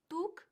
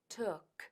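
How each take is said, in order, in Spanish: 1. El sonido final de la "k" es débil o no se pronuncia. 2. El sonido final de la "k" se pronuncia claramente. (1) "que no es took" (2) "marcando bien la K"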